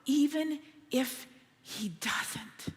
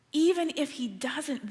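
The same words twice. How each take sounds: First: Slow, unvoiced whisper; soft whisper. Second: Said in the usual way. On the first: Shown as a demonstration. Pastor stressing the youths' faith, whispered. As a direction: breathe it gently. Repeated emphasis.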